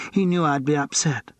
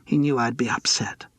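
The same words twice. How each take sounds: First: Tipsy, falling and slurred; slurred repeat. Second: Put-on breathy drunk murmur; tipsy whisper. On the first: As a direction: say it again, drunker. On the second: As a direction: hush it, tipsy. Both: A narrator's reading. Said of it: "her voice was slurred".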